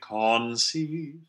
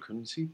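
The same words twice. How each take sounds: First: The first vowel is a full, clear O. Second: The first vowel is a weak, neutral schwa. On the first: The speaker calls it wrong. "you don't need to make conceive" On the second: The speaker calls it right. "you can think of them as the same neutral position"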